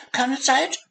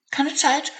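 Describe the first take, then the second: First: High squeak rising at the end; squeaking mouse, rising. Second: Very high squeaky mouse voice; squeaking mouse. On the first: Hurried hazel mouse squeaks while racing past. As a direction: squeak again, tossed over the shoulder. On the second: Hazel mouse brushes off the dormouse, squeaking. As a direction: squeak it out in a hurry. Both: Acted. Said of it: "fiepte die kleine Maus".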